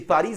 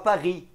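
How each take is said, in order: First: The name is said with a Portuguese pronunciation. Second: The name is said with a French pronunciation. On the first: The speaker calls it right. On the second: The speaker calls it wrong.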